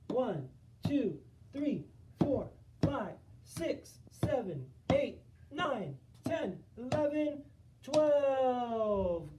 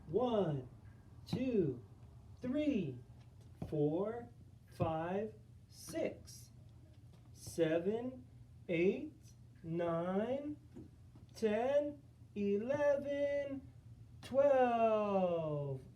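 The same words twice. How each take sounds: First: The counting is fast. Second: The counting is at a normal pace.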